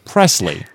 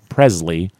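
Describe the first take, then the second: First: The middle consonant is a hissing s sound. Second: The middle consonant is a buzzing z sound. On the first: The speaker calls it right. "it's Presley" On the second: The speaker calls it wrong. "It's not Presley"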